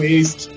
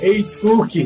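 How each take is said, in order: First: The middle 'u' vowel is dropped. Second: The middle 'u' vowel is fully pronounced. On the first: This is how the name is really pronounced there. "Eu cheguei lá e descobri que era Eiski, a pronúncia" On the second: This is how the name sounds in our own language. "que é Eisuki, da língua da gente"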